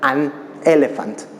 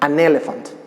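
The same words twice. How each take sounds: First: The two words are said separately with a break. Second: The n links smoothly into the next vowel. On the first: The speaker calls it wrong. "nunca la vas a pronunciar por separado. Es decir, no vas a decir an elephant" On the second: The speaker calls it right. "Aprovecha la N para pegarla con la vocal que sigue"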